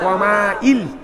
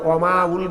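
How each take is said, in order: First: The ending is pronounced with an 'i' vowel. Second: The ending is pronounced with a 'u' vowel. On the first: The speaker calls it right. "কি বলবো রে?" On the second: The speaker calls it wrong. "অমাউল বলবো না"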